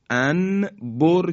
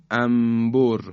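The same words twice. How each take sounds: First: انبر said anbor with a distinct n before b; wrong clear nun. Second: انبر said ambor, n becoming m; nun turned to mim. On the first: Teacher giving the form nobody uses, anbor. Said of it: "انبر کسی نمیگه". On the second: Teacher showing the everyday form, ambor. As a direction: close the lips on انبر, ambor. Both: Shown as a demonstration.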